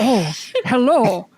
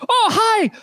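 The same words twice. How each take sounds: First: Slow, settled greeting in the captain's voice; corrected captain voice. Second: A much higher, bright false start at the captain's voice; wrong character voice. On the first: GM restarts the CSI captain's greeting in the proper voice. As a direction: greet them again, now in the right voice. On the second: GM botches the CSI captain's voice before correcting it. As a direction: start the captain's greeting too high and wrong. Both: Acted. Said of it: "that's the wrong accent".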